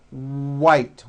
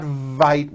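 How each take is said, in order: First: White said with rounded lips on the W; white, clean W sound; correct W. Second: Vite, V instead of W; wrong V. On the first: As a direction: show the right W in white. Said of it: "it's white with a W". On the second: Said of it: "It's not vite with a V". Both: Shown as a demonstration.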